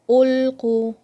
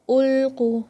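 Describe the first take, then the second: The two takes are said the same way.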